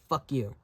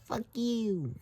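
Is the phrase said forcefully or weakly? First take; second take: forcefully; weakly. First: It is said normally, with full force. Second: It is said weakly, with little force. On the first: The insult comes across as a real one. "Just normal" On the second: The insult comes across as feeble. "a weak flipping someone off"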